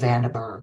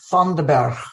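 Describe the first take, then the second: First: The name is said with an English accent. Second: The name is said with a Dutch accent. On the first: "We would say Vandenberg" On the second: "I'm going to have the joy of pronouncing it in Dutch"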